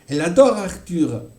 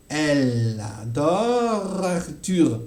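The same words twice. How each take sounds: First: Said in the usual way. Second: Elle adore Arthur slowly, sounds blended; slow linking demo. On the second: Shown as a demonstration. Teacher slowly demonstrates the linked elle adore Arthur. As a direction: stretch each link, el-ador-Arthur. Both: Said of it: "vous entendez bien que le L se confond".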